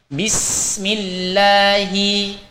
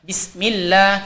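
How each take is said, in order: First: The s sound flows out for one beat. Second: The s sound is cut short without flowing. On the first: The speaker calls it right. "harus kita alirkan sin sukun dengan sempurna satu harokat" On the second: The speaker calls it wrong. "kita tidak boleh membacanya Bismillah"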